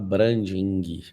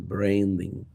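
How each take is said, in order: First: It is said with a Brazilian Portuguese accent. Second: It is said with an American English accent. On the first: The speaker calls it wrong. "Não fala branding" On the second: The speaker calls it right. "fala branding. Faz a boquinha de americano"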